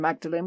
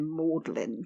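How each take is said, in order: First: The name is said as spelled, Magdalene. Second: The name is said as Maudlin. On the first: This is the ordinary way others say it. "we're not going to say" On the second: This is the posh Oxford students' way. "we're going to say"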